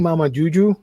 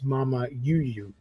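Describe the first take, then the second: First: The second word begins with a J sound. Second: The second word begins with a Y sound. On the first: The speaker calls it wrong. "that's not how you say it because Juju is like J instead of Y" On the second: The speaker calls it right. "but it is Mama Yu Yu"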